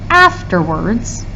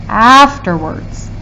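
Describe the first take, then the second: Both takes have the same delivery.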